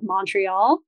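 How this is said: The first vowel is a long O or A. "Americans tend to say more like a long O or an A"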